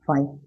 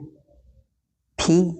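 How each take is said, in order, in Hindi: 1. शब्द 'eye' ध्वनि पर समाप्त होता है। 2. शब्द 'ee' ध्वनि पर समाप्त होता है। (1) "या फिर इसे बोल सकते हैं" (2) "हिंदी में इसका उच्चारण है"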